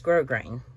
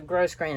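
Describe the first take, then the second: First: The first syllable ends without an s sound. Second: The first syllable ends with an s sound. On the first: The speaker calls it right. "gross grain is is grow grain" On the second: The speaker calls it wrong. "it's not gross grain"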